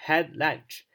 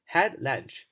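No difference in how they are said.

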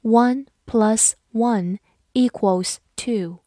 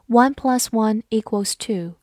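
First: Slow, deliberate sentence model; slow teacher read-aloud. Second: Said in the usual way. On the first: Shown as a demonstration. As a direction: read it slowly word by word. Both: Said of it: "好，慢慢来读".

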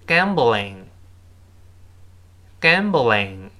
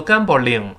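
First: "gambling" drawn out slowly with a light front l; model pronunciation. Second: "gambling" with an r-coloured middle and a separate "ling"; wrong l sound. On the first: Teacher reads the word for learners to repeat, slow model pronunciation. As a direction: say "gambling" slowly, tongue forward on the l. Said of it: "我们再读一下这个词". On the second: Teacher warns learners about the common mistake, mispronounced l. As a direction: curl the tongue in "gambling", like "gam-ber-ling". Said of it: "不要读gambling". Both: Shown as a demonstration.

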